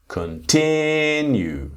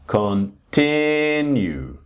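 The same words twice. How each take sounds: First: The stress is on the second syllable. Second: The same.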